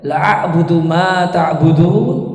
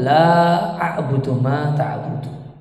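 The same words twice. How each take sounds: First: The vowel in 'la' is cut short. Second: The vowel in 'la' is held long. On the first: Truly I worship what you worship. The speaker calls it wrong. "Lanya dibaca pendek" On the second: I do not worship what you worship. The speaker calls it right. "Padahal harusnya lanya panjang"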